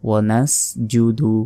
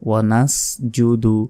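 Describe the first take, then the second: No difference in how they are said.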